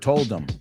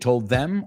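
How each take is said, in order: First: The word them is reduced to em. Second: The word them is pronounced in full.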